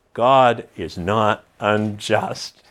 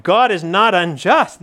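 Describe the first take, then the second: First: "God is not unjust" said slow and lower, weighing each word; slow it right down on "God is not unjust"; slow quote. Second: "God is not unjust" lifted with bright joy, rising; radiant. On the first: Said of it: "he almost has a s". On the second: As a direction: let "God is not unjust" shine with gladness. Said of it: "there's something radiant about". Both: Shown as a demonstration.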